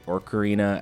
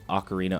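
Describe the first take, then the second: First: The first syllable has an added r sound. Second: The first syllable has no r sound. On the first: The speaker calls it wrong. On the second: The speaker calls it right.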